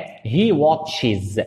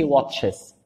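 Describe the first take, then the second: First: He watches with a plain wa sound; wrong pronunciation. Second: He watches said slowly with an open o, watches; slow wrong version. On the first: Teacher marks the wrong version of he watches. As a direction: say watches the way it is written, marked wrong. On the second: Teacher slowly repeats the mistake for students. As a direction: drag out the mispronounced watches. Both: Shown as a demonstration. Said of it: "ماشي he watches".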